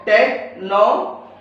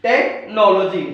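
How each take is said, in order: First: technology slowly with a rising end; slow syllables. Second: technology slowly with a falling end; slow careful word. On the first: Teacher modelling the syllables of technology. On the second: Teacher repeating technology for the students. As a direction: finish technology slowly and clearly. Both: Shown as a demonstration. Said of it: "stress कहाँ पे आ रहा है".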